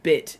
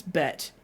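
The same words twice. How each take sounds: First: Said in the usual way. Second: "bet" with an "eh" in place of "bit"; Welsh vowel. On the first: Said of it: "instead of bit". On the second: Shown as a demonstration. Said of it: "it's bet".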